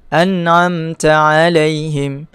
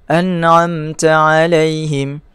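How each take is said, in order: No difference in how they are said.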